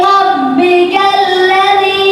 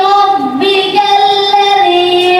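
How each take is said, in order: The two takes are said the same way.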